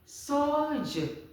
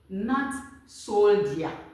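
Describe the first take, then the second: First: The word is said with a 'j' sound. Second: The word is said without a 'j' sound. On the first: The speaker calls it right. "then your J" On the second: The speaker calls it wrong.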